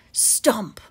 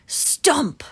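The two takes are said the same way.

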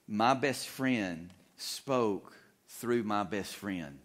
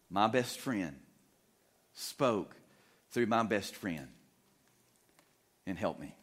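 First: Said slowly and deliberately; preacher drives home his key line slowly; slow emphatic line. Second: "My best friend ... spoke ... through my best friend", with a pause between chunks; preacher repeats his key line with dramatic pauses; broken by pauses. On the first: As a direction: let each word land, unhurried. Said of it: "the repeat at line 81". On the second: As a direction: space it out, phrase by phrase. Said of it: "the repeated line". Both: Acted.

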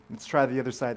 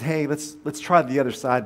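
First: Said in the usual way. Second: Calling out. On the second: Acted. Voice from shore calls to boats.

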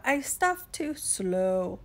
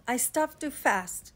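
First: Drawn-out, sluggish turtle delivery; slow turtle drawl. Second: Said in the usual way. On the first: Acted. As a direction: take your time, stretching out "slow".

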